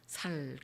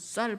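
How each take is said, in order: First: The first consonant is a plain 's' sound. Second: The first consonant is a tense 's' sound. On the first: The speaker calls it wrong. "살 그런다고 하잖아요" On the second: The speaker calls it right. "쌀 발음을 잘 못한다"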